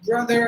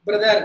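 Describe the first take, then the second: First: "Brother" ending in American "er", tongue not touching. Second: "Brother" with the R sounded the Indian way, tongue touching; Indian-English R. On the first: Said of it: "they will apply the sound of er". ("Brother" அமெரிக்க er ஒலியுடன்) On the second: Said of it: "That is how we pronounce the letter R". (Tamil பாணியில் நாக்கு தட்டும் R உடன் "Brother") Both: Shown as a demonstration.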